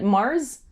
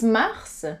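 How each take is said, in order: First: It is pronounced as an English word. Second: It is pronounced as a French word. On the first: It names the planet. "like the planet Mars" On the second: It names the month of March. "but it's Mars for March"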